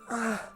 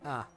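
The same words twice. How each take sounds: First: A drawn-out, moaning exclamation. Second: A short, plain exclamation. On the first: The speaker calls it right. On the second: The speaker calls it wrong.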